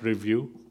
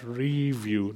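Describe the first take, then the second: First: The stress is on the second syllable. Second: The stress is on the first syllable. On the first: Evaluate it in the ordinary sense. The speaker calls it wrong. "not review" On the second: Look at it again with fresh eyes. The speaker calls it right. "As in, have a fresh look at it"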